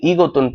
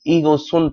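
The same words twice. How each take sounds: First: ईगोतुन with a "t" in the last syllable; word-by-word reading. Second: ईगो सुन with "s" opening the last syllable; linked reading. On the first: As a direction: read ईगोतुन as spelt, ending "tun". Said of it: "पढ़ेंगे आप". (ईगोतुन में "त" की आवाज़, जैसा लिखा है) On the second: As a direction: carry an s over into सुन, not t. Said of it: "पढ़ेंगे". (ईगो सुन में "त" की जगह "स") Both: Shown as a demonstration.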